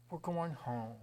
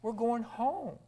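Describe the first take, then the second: First: Softer echo. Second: Joyful proclamation. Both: Acted. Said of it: "graduation day".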